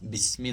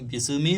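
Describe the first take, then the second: First: The s runs straight into the m. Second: An extra vowel is added after the s. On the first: The speaker calls it right. "ബിസ്മി എന്ന് ഓതുക" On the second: The speaker calls it wrong. "ബിസ്മി എന്ന് ഓതരുത്"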